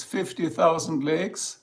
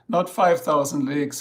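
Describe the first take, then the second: First: "fifty thousand" said slowly and deliberately; slow down to make "fifty" the right number; stress on fifty. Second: "five" hit harder to rule it out; stress on five. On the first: Streamer correcting the lake count for viewers, slow stress on fifty. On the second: Streamer correcting the lake count for viewers, stress on five. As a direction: punch "five" as the wrong number. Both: Shown as a demonstration.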